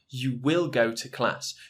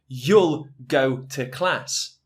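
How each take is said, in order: First: You will is said as two full words. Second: You will is contracted into one syllable.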